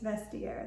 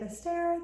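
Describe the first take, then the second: First: It is said as vest-tea-air. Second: It is not said as vest-tea-air. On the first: The speaker calls it right. "it's Vestiaire" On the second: The speaker calls it wrong. "I used to say Vestiaire, that's not right"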